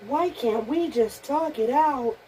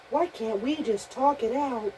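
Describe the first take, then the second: First: Higher, slow, pleading toy. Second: Higher, pleading toy voice. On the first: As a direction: drag out the plea like a scared toy. Repeat of Toy Story line. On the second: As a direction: beg like a frightened toy. Voicing Toy Story figure. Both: Pretend.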